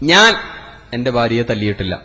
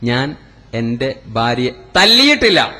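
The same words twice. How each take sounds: First: The first word carries the stress. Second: The last word carries the stress. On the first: Someone else hit her. "ഞാൻ തല്ലിയിട്ടില്ല. നാട്ടുകാർ കൈവച്ചിട്ടുണ്ടാവും" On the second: She was kicked, not hit. "ചവിട്ടിയിട്ടേ ഉള്ളൂ"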